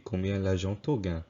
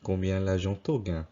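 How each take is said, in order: First: The pronoun for 'you' sounds like 'to'. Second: The pronoun for 'you' sounds like 'to'.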